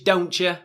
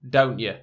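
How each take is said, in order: First: It has an American accent with a pronounced T. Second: It has a British accent with a barely sounded T. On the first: "American English" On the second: "British English, ... The T isn't really sounded so much"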